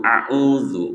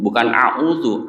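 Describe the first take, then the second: First: A'udzu said with a clear z, tongue tip touching the upper front teeth; correct pronunciation. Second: A'udzu said with a flat d sound instead of the dotted z; wrong pronunciation. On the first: Teacher contrasting the right take with the wrong one, correctly pronounced. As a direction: say a'udzu properly, with the z between the teeth. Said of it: "termasuk ucapan a'udzu". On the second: Teacher contrasting the wrong take with the right one, mispronounced. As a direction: give the wrong version of a'udzu with a plain d. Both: Shown as a demonstration.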